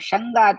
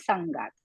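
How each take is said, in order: First: The word begins with a sh sound. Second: The word begins with an s sound. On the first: The speaker calls it wrong. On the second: The speaker calls it right.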